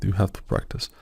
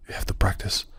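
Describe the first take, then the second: First: Said in the usual way. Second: "practice" whispered in a voice unlike his own; whispered advice. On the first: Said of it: "it means exactly that". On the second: Retold or imitated. Recalling what everyone told him about practice, whispered. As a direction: quote the old advice under your breath. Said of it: "I think they have told me".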